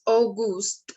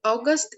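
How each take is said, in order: First: August said slowly with a long oo, "au-GOOST"; German pronunciation. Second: Said in the usual way. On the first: Shown as a demonstration. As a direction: say August the German way, drawing out the second syllable. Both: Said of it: "month's name in German".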